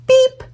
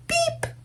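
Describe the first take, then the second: First: High, bright beep; a cheerful little truck beep; horn beep. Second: Much softer, high tiny beep; a drowsy little beep, barely there; small sleepy beep. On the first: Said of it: "said Blue". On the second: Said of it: "Blue gave one small sleepy". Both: Acted.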